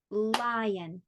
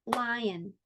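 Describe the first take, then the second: First: "Lion" drawn out as lie, on; two-syllable demo. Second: Said in the usual way. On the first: Shown as a demonstration. Teacher shows it has two, "Lion" in separate syllables. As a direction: lengthen each beat of "Lion". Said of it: "That one actually has two". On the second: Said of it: "How about this one?".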